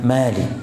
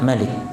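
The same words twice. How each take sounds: First: The first vowel is said long. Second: The first vowel is said short. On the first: The word means owner. The speaker calls it wrong. "bukan Malik" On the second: The word means king. The speaker calls it right. "beliau memilih yang raja, dibaca Malik"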